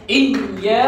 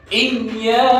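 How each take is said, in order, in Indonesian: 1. Bunyi y ditekan dan ditahan lama. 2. Bunyi y ditekan dan ditahan lama.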